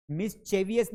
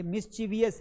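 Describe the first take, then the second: First: मिस्चीवियस with "che" in the middle; wrong pronunciation. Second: मिस्चीवियस with a long "chee" in the middle; correct pronunciation. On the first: Teacher showing the mistake, मिस्चीवियस with "che". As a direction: say "mis-chay-vi-us" for मिस्चीवियस. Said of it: "यहाँ पे चे नहीं पढ़ना". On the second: Teacher giving the right reading, मिस्चीवियस with "chee". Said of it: "ये मिस्चीवियस है". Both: Shown as a demonstration.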